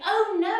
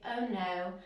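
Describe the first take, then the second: First: It is said with real distress. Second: It is said calmly, without distress.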